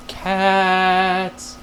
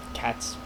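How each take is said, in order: First: One long, held, playful "caaats"; long drawn-out word. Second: Said in the usual way. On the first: Pretend. Vlogger playfully answering dogs or cats, drawn out. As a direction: stretch CATS right out.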